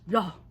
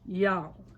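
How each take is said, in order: First: It is said very fast in a Northern way. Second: It is said slowly in a Southern way. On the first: The speaker calls it wrong. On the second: The speaker calls it right.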